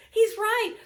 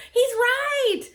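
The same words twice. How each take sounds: First: Softer laughing repeat. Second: High, loud laughing concession; laughing admission. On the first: Wife conceding again, amusement fading. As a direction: let the laugh fade out. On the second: Wife laughing as she concedes her husband is right. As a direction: laugh as you give in. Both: Real, not acted.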